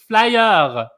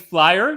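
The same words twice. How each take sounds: First: It is said with a French-style pronunciation. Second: It is said with a native English pronunciation. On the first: The speaker calls it wrong. "speak it the wrong way" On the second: The speaker calls it right. "the proper way of speaking English"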